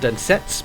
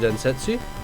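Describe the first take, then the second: First: The final u sound is dropped. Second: The final u sound is clearly pronounced. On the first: The speaker calls it right. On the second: The speaker calls it wrong.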